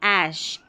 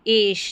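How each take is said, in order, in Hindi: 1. यह स्वर 'cat' के a जैसा सुनाई देता है। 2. यह स्वर 'bed' के e जैसा सुनाई देता है। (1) "इसको पढ़ेंगे ऐश" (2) "एश नहीं"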